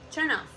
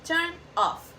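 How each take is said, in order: First: The final consonant links into the next word. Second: Each word is said clearly and separately.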